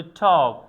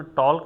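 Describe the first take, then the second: First: টক said without any l; silent l talk. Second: টল্ক with the l sounded; the wrong way: টল্ক, l said aloud; wrong talk with l. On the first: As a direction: say টক, l left out. (টক উচ্চারণে এল নীরব) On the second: (ভুল উচ্চারণ: টল্ক, এল উচ্চারিত) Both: Shown as a demonstration. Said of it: "কখনো টল্ক বলা যাবে না".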